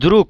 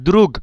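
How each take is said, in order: First: The word ends with a voiceless k sound. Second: The word ends with a voiced g sound. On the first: "দ্রুগ না হয়ে দ্রুক হলো" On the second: "গ লাস্টে যে গে আছে এটার উচ্চারণ গ এর মতো হওয়ার দরকার ছিল"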